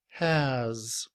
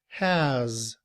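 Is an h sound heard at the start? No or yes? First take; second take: yes; yes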